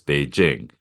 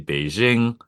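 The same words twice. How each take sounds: First: The j is a hard j sound. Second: The j is a soft zh sound. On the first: The speaker calls it right. "it's Beijing" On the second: The speaker calls it wrong. "people always say Beijing"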